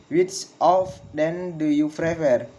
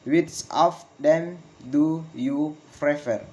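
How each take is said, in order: First: Measured question, falling on "prefer"; falling question intonation. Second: Slow, each word set apart, "prefer" falling; slow falling question. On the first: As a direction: model it connected, "prefer" dropping. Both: Shown as a demonstration. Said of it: "Failing intonation in with, in questions".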